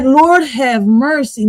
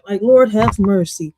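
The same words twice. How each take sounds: First: Slow, stretched Lord have mercy; drawn-out Lord have mercy. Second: Said in the usual way. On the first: Shown as a demonstration. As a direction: Lord dragged out long. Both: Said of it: "let's take that back a little bit".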